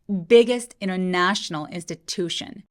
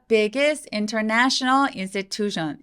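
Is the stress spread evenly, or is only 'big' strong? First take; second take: only big; evenly. First: Only 'big' is strong; the rest is relaxed. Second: Every word gets similar, even stress. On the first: The speaker calls it right. "biggest 해서 B만 잘 들리고 나머지는 힘을 좀 빼는 느낌이에요" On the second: The speaker calls it wrong. "이렇게 많이 읽으시는데"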